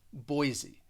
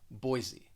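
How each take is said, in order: First: The middle consonant sounds like a Z. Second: The same.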